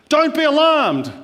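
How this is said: It is said forcefully and firmly. "If they say it very forcefully"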